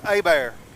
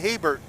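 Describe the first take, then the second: First: The name is said the local French way. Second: The name is read the plain English way. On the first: This is how the locals say it. The speaker calls it right. "they told me it's Abear" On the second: This is how an outsider would read it. The speaker calls it wrong. "I would say Hebert"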